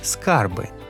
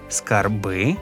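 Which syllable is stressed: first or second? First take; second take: first; second. First: The stress is on the first syllable. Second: The stress is on the second syllable. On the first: "і на корені" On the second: "наголос на закінченні"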